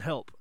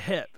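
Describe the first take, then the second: First: The L sound is clearly pronounced. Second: The L sound is dropped entirely. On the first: The speaker calls it right. "the L in help" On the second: The speaker calls it wrong. "nobody or a lot of people don't say the L in help, and they say "hep,""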